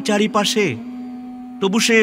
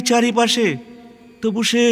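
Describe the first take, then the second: No difference in how they are said.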